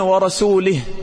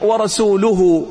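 First: The word ends with an i vowel. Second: The word ends with a u vowel. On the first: "بالكسرة" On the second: "بالضمة"

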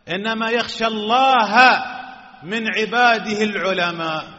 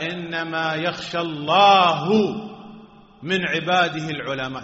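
First: The word for God ends in an a vowel. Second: The word for God ends in a u vowel. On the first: The scholars fear God. The speaker calls it right. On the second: God fears the scholars. The speaker calls it wrong.

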